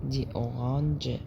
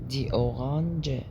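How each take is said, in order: No difference in how they are said.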